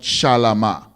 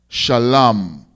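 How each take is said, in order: First: The word ends with an extra vowel. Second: The word ends without a final vowel. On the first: The speaker calls it wrong. "not shalama" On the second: The speaker calls it right. "we would drop the A in ma"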